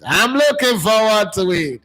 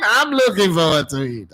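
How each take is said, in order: First: "looking" higher and slower, drawn out; emphatic repeat. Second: Said in the usual way. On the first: Real, not acted. Host repeats to viewers how eager he is for the season, slower and higher. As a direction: lean into "looking" to really mean it.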